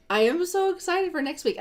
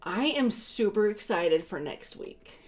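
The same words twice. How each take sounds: First: Higher, bursting with excitement; excited. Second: Said in the usual way. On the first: Shown as a demonstration. To viewers, restating her plans with more excitement. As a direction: sell the excitement this time.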